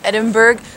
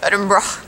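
First: It is pronounced the way Canadians say it. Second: It is pronounced the way Edinburgh locals say it. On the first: "As a Canadian, I would be saying Edinburgh" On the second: "I keep hearing the locals say Edinburgh"

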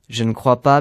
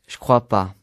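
First: Every syllable is pronounced in full. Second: Sounds are dropped and run together.

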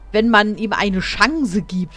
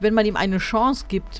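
First: 'Chance' ends with a hard n-z sound, like 'Schanze'. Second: 'Chance' ends softly, in the French-style way. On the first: The speaker calls it wrong. "ich finde das manchmal echt schrecklich, wie manche Leute manche Worte betonen" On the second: The speaker calls it right. "Normalerweise wird das eigentlich"

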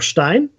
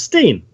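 First: The word has a German-style pronunciation. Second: The word has an English-style pronunciation. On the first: "of Germanic derivation, and you can pronounce it either Stein" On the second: "if you wanted to do the English way"

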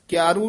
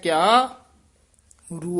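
First: It is said as one word without a break. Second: There is a short break between the parts. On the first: The speaker calls it wrong. "ਕਿਆਰੂ ਨਹੀਂ ਕਹਿ ਦੇਣਾ" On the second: The speaker calls it right. "ਇੱਥੇ ਠਮਕ ਲਾ ਕੇ ਉਚਾਰਨ ਕਰਨਾ"

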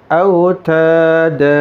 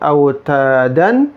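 First: The word ends with a long vowel. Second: The word ends with an n sound. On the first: The speaker calls it right. "tapi autada. Dibaca panjang" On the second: The speaker calls it wrong. "bukan autadan"

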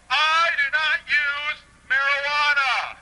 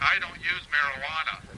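First: It is said loudly, almost shouted. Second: It is said at a normal, quiet volume.

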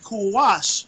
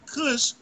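First: The word is said as two syllables. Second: The word is said as one short syllable. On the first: The speaker calls it right. "if you really tried to pronounce that word, it would be Kuwash" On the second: The speaker calls it wrong. "it wouldn't be Kush"

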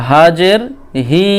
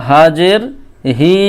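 The two takes are said the same way.

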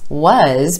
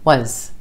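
First: The word has a full, clear vowel. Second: The word has a short, reduced vowel.

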